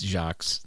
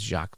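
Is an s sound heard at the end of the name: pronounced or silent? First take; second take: pronounced; silent. First: The final s sound is pronounced. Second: The final s sound is not pronounced. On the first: The speaker calls it wrong. "That's how you say it in Boston" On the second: The speaker calls it right. "the S is silent"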